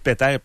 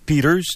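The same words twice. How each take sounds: First: The name is pronounced the French way. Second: The name is pronounced the English way. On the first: "je dis Peter parce que ce n'est pas un anglophone" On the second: "c'est la façon anglaise de dire son nom"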